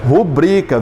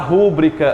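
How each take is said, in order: First: The stress falls on the second syllable. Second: The stress falls on the first syllable. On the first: This is the standard pronunciation. The speaker calls it right. "como é a pronúncia correta?" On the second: This is how people commonly say it. The speaker calls it wrong. "Como é que a gente diz comumente"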